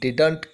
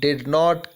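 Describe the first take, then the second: First: The words are merged into one contracted word. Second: Both words are said fully and separately.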